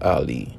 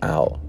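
First: The name ends with a final vowel sound. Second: The name ends without a final vowel sound. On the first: "pronounced it as it was spelt" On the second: "make the I silent so that my name would sound like"

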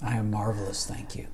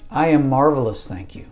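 First: It is said at a quieter, normal volume. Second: It is said very loudly, like yelling.

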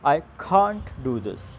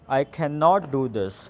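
First: The word 'cannot' is contracted to 'can't'. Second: The word 'cannot' is said in full. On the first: "You can say simply" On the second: "For example"

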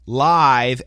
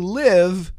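First: The vowel sounds like the one in 'five'. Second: The vowel sounds like the one in 'give'. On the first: The speaker calls it right. "Live, L-I-V-E, wire" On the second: The speaker calls it wrong. "don't say live. It's the same spelling, different meaning, different pronunciation"

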